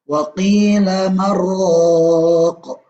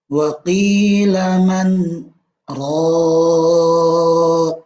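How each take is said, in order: First: The n merges completely into the r. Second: The n is heard clearly before the r. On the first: The speaker calls it wrong. "Salah kalau ada orang yang ... membacanya wa qila marraq. Itu salah" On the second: The speaker calls it right. "tidak dibaca idgham, melainkan dibaca izhar"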